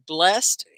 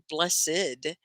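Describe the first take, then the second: First: BLESSED said loud as "blest"; one syllable. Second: BLESSED slowly as "bless-id"; two syllables. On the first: Teacher turns to the other adjective, one syllable. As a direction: say BLESSED in one beat, ending in t. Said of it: "blessed also describes". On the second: Teacher weighs the word as an adjective, two syllables. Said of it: "could be an adjective". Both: Shown as a demonstration.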